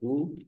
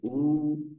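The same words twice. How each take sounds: First: The vowel is held for one short beat. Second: The vowel is held for two beats. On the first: "ह्रस्व" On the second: "दीर्घ"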